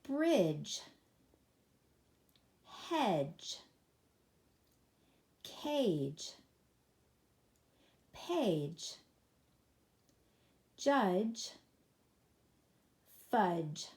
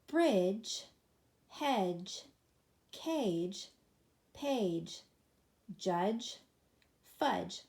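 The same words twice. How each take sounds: First: The words are read at a normal pace. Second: The words are read a little faster. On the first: "let's read these together" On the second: "a little faster this time"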